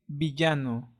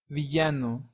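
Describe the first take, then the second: Both takes have the same delivery.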